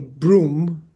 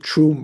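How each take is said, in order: First: The syllable begins with a b sound. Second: The syllable begins with a t sound. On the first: This is the Sanskrit pronunciation. "the Sanskrit syllable broom. The Tibetans don't say broom" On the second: This is the Tibetan pronunciation. "They would pronounce it troom or something like that"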